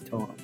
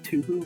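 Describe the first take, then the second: First: The first syllable sounds like 'toe'. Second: The first syllable sounds like 'too'. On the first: The speaker calls it right. "No, it's Toho. Get your pronunciation correct" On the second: The speaker calls it wrong. "as if it's pronounced two or something"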